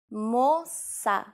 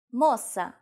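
First: Two long, separated syllables; slow demonstration. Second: Said in the usual way. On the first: Shown as a demonstration. Teacher showing learners the word for girl, slowly. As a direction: stretch both syllables for the learner.

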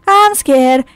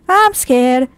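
No difference in how they are said.

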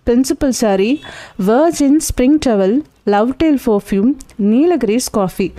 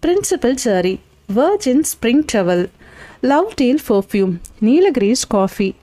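First: principal sorry and the next items lifted in a rising list tune; reciting a list pointedly. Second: principal sorry and each following item falling, set apart; musing over a list. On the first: Lawyer explaining the list to his junior, pointed recital. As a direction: lay out each item for a listener, rising until Nilgiris coffee lands with a fall. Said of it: "பட்டியல் என்ன சொல்கிறது?".

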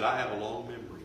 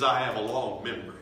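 First: Said in the usual way. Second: Loud memory line. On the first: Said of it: "He said". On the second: Acted. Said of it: "you want to hear him say".

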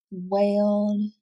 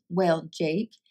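First: Wailed, slow and stretched on its own; teacher isolating the word wailed; word said alone. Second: Said in the usual way. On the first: Shown as a demonstration. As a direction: read wailed clearly as a single word for kids. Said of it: "All of these words make the sound A".

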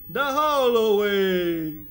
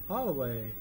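First: Slow, loud, drawn-out The hallway; slow, loud sing-song The hallway. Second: Said in the usual way. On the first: Acted. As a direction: stretch the hallway like a cheer. Repeats word, then sings it.

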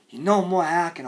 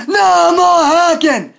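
First: Low, soft, controlled; subdued warning. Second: High, slow, drawn-out shout; furious yell. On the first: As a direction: drop to a quiet warning. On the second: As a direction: yell the demand with full outrage. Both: Acted. Same demand, shouted then subdued.

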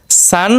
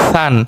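First: সান begun with a firm, hissed s; hard S. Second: সান begun with a soft th-like sound. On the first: Teacher drilling two S sounds, hard সান. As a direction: keep the স of সান hard and sharp. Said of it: "একটা শক্ত". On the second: Teacher drilling two S sounds, soft সান. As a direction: soften the স of সান into a gentle th. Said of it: "আর একটা নরম". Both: Shown as a demonstration.

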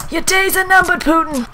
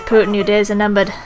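First: High, hammed-up threat; high-pitched battle cry; mock threat. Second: Said in the usual way.

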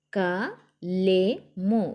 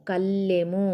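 First: "కలెము" very slow, split as ka, le, mu; letter by letter. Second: "కల్లెము" as one word with a held L; pressed double L. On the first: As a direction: sound out "కలెము" with long gaps between letters. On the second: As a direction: blend "కల్లెము", leaning on the doubled L. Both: Shown as a demonstration. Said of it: "ఒత్తి పట్టి చదవాలి".

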